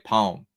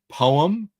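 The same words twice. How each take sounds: First: It is said in the speaker's accent, shortened. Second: It is said in a UK accent, vowels full.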